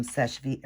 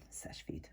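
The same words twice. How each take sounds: First: Seche Vite with the final t dropped, like "sesh-vee"; mispronounced brand name. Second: Seche Vite with a sounded final t, like "sesh-veet"; self-corrected pronunciation. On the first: Nail vlogger naming her cleanup product, Seche Vite slipped out as "sesh-vee". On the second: Nail vlogger correcting her slip, Seche Vite said softly as "sesh-veet". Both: Real, not acted. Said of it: "er, Seche Vite, I'm sorry".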